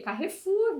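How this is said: It is said with a Brazilian Portuguese pronunciation. "aqui no Brasil a gente fala o quê? Carrefour"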